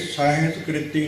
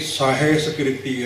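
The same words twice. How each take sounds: First: ਸਾਹਿਸਕ੍ਰਿਤੀ with the middle vowel run together; wrong pronunciation. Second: ਸਾਹਿਸਕ੍ਰਿਤੀ as sa-hes-kriti; careful ਸਾਹਿਸਕ੍ਰਿਤੀ, syllable by syllable; correct pronunciation. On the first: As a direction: say ਸਾਹਿਸਕ੍ਰਿਤੀ as the common misreading, sahas-kriti. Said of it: "ਨਹੀਂ". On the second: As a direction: sound a clear "he" inside ਸਾਹਿਸਕ੍ਰਿਤੀ. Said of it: "ਹੈ". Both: Shown as a demonstration.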